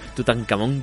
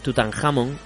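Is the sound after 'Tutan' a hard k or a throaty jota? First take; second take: hard k; throaty jota. First: The middle consonant is a hard k sound. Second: The middle consonant is a throaty Spanish jota. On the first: This form sounds more serious. "Tutankamón queda más serio" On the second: This is the true form of the name. "los británicos no saben pronunciar la J, pero en verdad es Tutankamón, aunque nos resulte muy gracioso"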